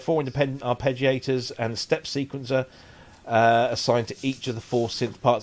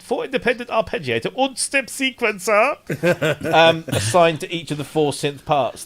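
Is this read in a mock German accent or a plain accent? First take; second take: plain; mock German. First: It is read in the speaker's ordinary accent. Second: It is read in a mock German accent.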